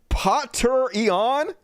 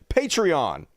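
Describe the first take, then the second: First: The word begins with a 'potter' sound. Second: The word begins with a 'pat' sound. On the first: The speaker calls it wrong. "Why would it be Potter?" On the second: The speaker calls it right. "It's like patron"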